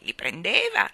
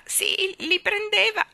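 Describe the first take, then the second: First: Said in the usual way. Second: "li prendeva" pitched much higher and louder; emphatic old woman. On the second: Acted. Old woman insists to the children, stressing "prendeva" high. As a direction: hammer home "prendeva" high and strong.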